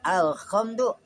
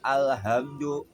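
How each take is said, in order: First: The h sound is a raspy kh from the upper throat. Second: The h sound comes from the middle of the throat. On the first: "kha adanya di atas" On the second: "pakai ha. Ha di tengah tenggorokan"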